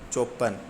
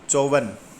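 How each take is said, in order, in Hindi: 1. बीच का व्यंजन 'p' है। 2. बीच का व्यंजन 'v' है।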